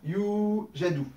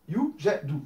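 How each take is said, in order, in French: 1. La première voyelle dure deux temps. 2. La première voyelle dure un temps. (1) "là, j'ai deux temps" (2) "un temps à chaque fois"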